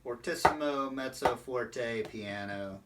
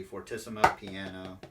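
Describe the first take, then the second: First: Spaced-out "fortissimo, mezzo forte, piano", gradually fading; gradual dynamic step-down. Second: "fortissimo piano" run together quickly, with no middle step; immediate dynamic change. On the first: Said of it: "it shouldn't be like". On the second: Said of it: "it should just be". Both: Shown as a demonstration.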